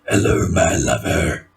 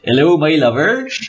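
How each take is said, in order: First: It is said in a deep gruff voice. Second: It is said in a plain natural voice. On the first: This is the warrior voice he was given. "eventual given voice" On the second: This is how he normally sounds. "natural voice"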